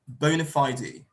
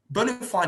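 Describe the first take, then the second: First: It is said with a British pronunciation. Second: It is said with an American pronunciation. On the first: "if you choose to use the British pronunciation, you could say" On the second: "That's American"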